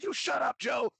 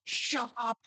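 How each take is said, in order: First: Much higher mock yell at Joe; a jokey mock yell, much higher; retold shout. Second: Much higher mock yell; a playful mock yell, much higher; retold shout. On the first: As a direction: throw it back at him in a high teasing voice. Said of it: "I said". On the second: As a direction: snap it back in a high jokey voice. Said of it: "And I said".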